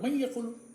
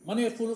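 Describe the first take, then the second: First: The n merges into the following y. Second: The n is pronounced clearly before the y. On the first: The speaker calls it right. "नून जो है ये में मिल जाएगा" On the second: The speaker calls it wrong. "मन यक़ूलु गलत है"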